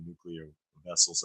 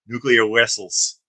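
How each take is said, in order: First: Said in the usual way. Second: Put-on "Nuclear vessels" said slowly with a hammy Russian accent, v as w, "wessels"; over-the-top Russian accent, drawn out; fake Russian accent. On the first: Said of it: "over-the-top Russian accent". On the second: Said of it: "with his fake, uh, over-the-top Russian accent".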